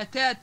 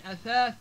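First: أتات with two plain t sounds. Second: Said in the usual way. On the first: Shown as a demonstration. Teacher giving examples, أتات with t. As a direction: say أتات as atat, no th. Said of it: "اختفاء حروف مثل الثاء". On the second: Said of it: "بدل من أثاث".

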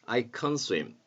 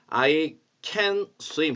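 First: Can reduced and light; weakened can. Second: Can hit hard and full; full, punched can in I can swim; stressed can. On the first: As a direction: slide over can in I can swim. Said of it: "can의 발음을 조금 약화시키면 좋겠어요". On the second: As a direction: say can strongly, the way to avoid. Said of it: "강하게 I can swim 하지 마시고". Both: Shown as a demonstration.

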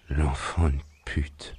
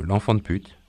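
First: Slow, drawn-out curse on coming round; groggy curse. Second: Playful quote. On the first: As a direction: curse slowly, barely conscious. Man coming round curses weakly. (juron lent, à demi conscient) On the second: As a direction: insult handed back lightly. Bobby playfully repeats the insult. (reprise légère du juron, en plaisantant) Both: Acted.

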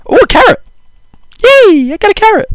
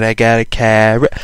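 First: Very high, squeaky excited voice; squeaky delight. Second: Said in the usual way. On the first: Pretend. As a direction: squeal with delight over a tiny find. Finds a carrot in game.

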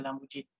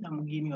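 First: Lamborghini with a soft g, as in "gin"; soft g pronunciation. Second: Lamborghini with a hard g, as in "give"; hard g pronunciation. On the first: Lecturer offering the other way of saying it, Lamborghini with soft g. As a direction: say Lamborghini as "Lambor-JEE-nee". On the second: Lecturer checking how the car's name is said, Lamborghini with hard g. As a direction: say Lamborghini as "Lambor-GHEE-nee". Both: Shown as a demonstration. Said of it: "Is it Lamborghini or Lamborghini?".

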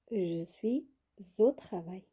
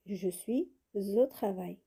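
First: Said in the usual way. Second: Je suis au travail, slowly, with the liaison of suis and au sounded as zo; slow teacher demo linking suis au as zo. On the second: Shown as a demonstration. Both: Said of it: "On fait la liaison".

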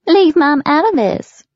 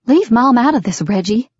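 First: High, loud mock of a woman's plea; cruel mocking. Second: Raised, louder protest; upset demand. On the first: Father parrots daughter's plea, high cruel mockery. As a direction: mimic her cruelly, far higher and louder. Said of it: "he mocked her cruelly". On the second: Daughter tells father off about Mom, upset demand. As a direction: warn him off, pitch raised. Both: A narrator's reading.

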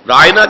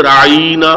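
First: Said in the usual way. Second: Imitated tongue-twist on رائنا, middle stretched to "raa-ee-na"; mock mispronounced رائنا with a lengthened "ee". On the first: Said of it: "کہتے ہیں اپنی زبانوں کو موڑتے ہوئے". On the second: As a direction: draw out the middle of رائنا into a long "ee". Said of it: "اپنی زبانوں کو موڑتے ہوئے".

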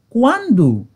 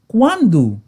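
Both takes have the same delivery.

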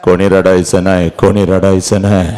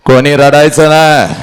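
First: Low, heavy command; holding back grief; subdued father. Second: Firm, projected command; raised, insistent voice; forceful father. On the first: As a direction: forbid tears with the voice sunk down. Father's order, voice drops low. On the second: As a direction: order the mourners to stop. Father's order repeated forcefully. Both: Acted.

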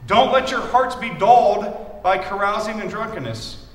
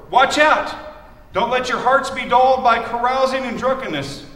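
First: Slower, weight on "let"; slow emphatic repeat. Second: Forceful scripture reading. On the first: Shown as a demonstration. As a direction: press "let" in "Don't let your hearts". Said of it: "repeats the verse". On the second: Acted. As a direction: read the verse out strong and loud.

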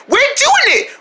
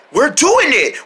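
First: Very high squeaky echo; excited little friend. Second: Raised, cheering effort; excited triumph. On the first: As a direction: pipe the cheer back in a tiny voice. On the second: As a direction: cheer the team on mid-lift. Group succeeds in lifting. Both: Pretend.

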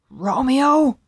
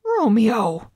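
First: Loud, high harsh call; harsh interruption. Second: Raised, louder astonished call; shocked gasp. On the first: Tybalt interrupts Romeo, harsh loud call. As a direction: cut in sharply with the name. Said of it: "interrupted a harsh voice". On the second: Mercutio is shocked at Romeo's refusal, gasping the name. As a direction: say the name in disbelief. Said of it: "gasped Mercutio". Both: A narrator's reading.

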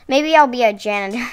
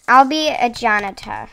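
First: Said in the usual way. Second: Playful mock British accent. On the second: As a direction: put on a loud British voice. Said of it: "British accent".

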